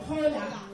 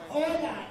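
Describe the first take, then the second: First: Hola with a spoken H at the start; hola said with an audible H; wrong, H sounded. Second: Hola with no H, starting on the vowel; hola as ola, the H unsounded; silent H. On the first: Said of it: "Do not say hola". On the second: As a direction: drop the H in hola. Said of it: "You're gonna say hola". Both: Shown as a demonstration.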